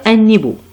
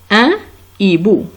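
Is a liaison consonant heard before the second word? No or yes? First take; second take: yes; no. First: An n sound links into the second word. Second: No linking sound comes before the second word. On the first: The speaker calls it wrong. "on ne peut pas dire un hibou" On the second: The speaker calls it right.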